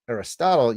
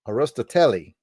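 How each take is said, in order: First: The name is said with English pronunciation. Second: The name is said with Greek pronunciation. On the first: "if you're Greek, you don't pronounce it Aristotle" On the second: "you say Arosto Arostoteli"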